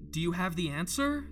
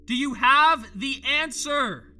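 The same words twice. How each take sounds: First: Said in the usual way. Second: Loud, high, slow plea; pleading shout. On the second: Acted. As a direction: beg for the answer out loud. Asks, then repeats louder.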